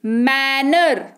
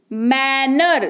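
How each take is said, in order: First: manner drawn out slowly; slow model word. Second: Said in the usual way. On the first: Shown as a demonstration. Teacher introduces manner to students, slow and careful. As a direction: say manner slowly, each syllable clear. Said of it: "teacher models word". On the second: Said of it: "repeated at normal pace".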